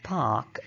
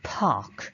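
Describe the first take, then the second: First: The first p has no puff of air. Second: The first p has a puff of air. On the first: "We say park" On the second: "but they say park. So there is visible inspiration"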